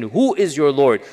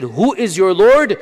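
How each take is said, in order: First: Said in the usual way. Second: Higher, louder and slow; demanding question, drawn out; challenging question. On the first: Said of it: "their question". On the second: Retold or imitated. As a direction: ask it as a challenge. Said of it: "when they said".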